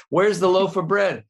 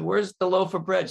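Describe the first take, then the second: First: Louder repeat. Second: Said in the usual way. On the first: Acted.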